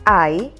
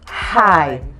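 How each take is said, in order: First: The word starts directly with the vowel. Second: The word starts with an h sound. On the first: The speaker calls it right. "It is I" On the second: The speaker calls it wrong. "and not high"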